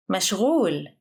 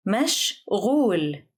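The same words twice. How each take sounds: First: Said in the usual way. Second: "مشغول" split into two separate syllables. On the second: Shown as a demonstration. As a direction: pause midway through "مشغول". Vocabulary drill, broken into syllables.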